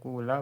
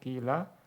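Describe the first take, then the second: First: The first vowel is a long u sound. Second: The first vowel is a pure i sound. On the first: "dhammul fa'i fatasiru ainu wawan sakinatan" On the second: "Engkau boleh mengkasrohkan fa-nya"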